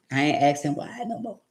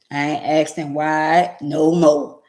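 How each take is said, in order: First: Said in the usual way. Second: "I ain't asking why no more" said slowly and louder, leaning on more; slow and firm, leaning on "more"; slow emphatic repeat. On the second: Real, not acted. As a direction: drag it out with weight. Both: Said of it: "repeated with emphasis".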